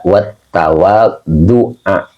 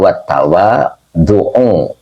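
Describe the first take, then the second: First: The word ends with an 'a' vowel. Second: The word ends with a 'u' vowel. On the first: The word is read in the accusative case. "mungkin kalau yang dibacanya nasab itu ngambil dari sab'an" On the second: The word is read in the nominative case. "Kalau saya dari awal bacanya wat tawadhu'u ya, karena dari awal sudah rofa"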